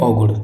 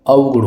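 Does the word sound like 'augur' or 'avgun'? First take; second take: augur; avgun. First: It starts with 'au' and ends in a flapped r. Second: It starts with 'av' and ends in an n. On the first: The speaker calls it wrong. "औगुड़ बोलते हैं औगुड़, लेकिन औगुड़ नहीं होता है" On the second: The speaker calls it right. "अवगुण होता है"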